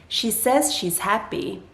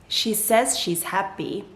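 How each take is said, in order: Both takes have the same delivery.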